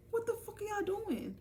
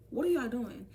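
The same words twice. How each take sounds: First: High, drawn squeal of disbelief; high-pitched outcry. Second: Said in the usual way. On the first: Retold or imitated. Catching classmates with her book, high-pitched outcry.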